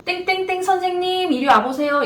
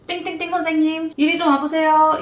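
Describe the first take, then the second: First: Higher, stretched "선생님" calling a newbie over; a senior's ominous summons; summoning senior nurse. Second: A senior calling someone over for a scolding; stern summoning senior. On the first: (신규를 불러 세우는 선배의 불길한 부름) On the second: (혼내려고 부르는 선배의 단호한 부름) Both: Retold or imitated. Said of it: "가장 무서웠던 이야기".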